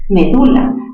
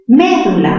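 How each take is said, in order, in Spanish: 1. La tónica cae en la sílaba 'du'. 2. La tónica cae en la sílaba 'me'. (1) "palabra grave terminada en vocal" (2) "mayor fuerza en me"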